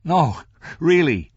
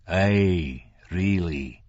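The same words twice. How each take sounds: First: High, loud, slow polite refusal; declining. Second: Controlled, cold insistence; coldly insistent. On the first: Franklin declines the whiskey, protesting. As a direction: protest in a raised, drawn-out voice. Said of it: "Franklin began to decline". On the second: Man overrules Franklin's refusal, coldly insistent. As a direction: press it coldly, without raising the voice. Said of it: "in a tone so coldly insistent". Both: A narrator's reading.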